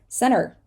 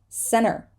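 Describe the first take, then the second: The two takes are said the same way.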